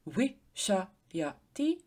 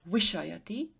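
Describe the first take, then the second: First: Wishayati drawn out slowly, each syllable wi-sha-ya-ti separate. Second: Said in the usual way. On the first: Shown as a demonstration. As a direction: spell out wishayati slowly so wi stands alone. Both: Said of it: "The first syllable would be wi".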